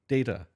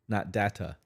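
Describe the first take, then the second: First: The first vowel sounds like 'day'. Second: The first vowel does not sound like 'day'. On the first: The speaker calls it right. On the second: The speaker calls it wrong.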